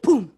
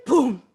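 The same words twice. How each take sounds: First: Falling leaf boom. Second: A louder boom as the leaf lands. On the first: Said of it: "make it fall just like this". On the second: Showing the class the leaf's loud boom. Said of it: "Put your finger up and you go". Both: Shown as a demonstration.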